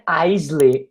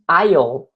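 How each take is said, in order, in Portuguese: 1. Não soa como o início de island. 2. Soa como o início de island. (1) "não é aisle" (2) "e sim aisle, é tipo island"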